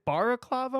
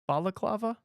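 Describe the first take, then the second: First: The second consonant is an R sound. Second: The second consonant is an L sound. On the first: The speaker calls it wrong. "I'm saying it wrong" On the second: The speaker calls it right.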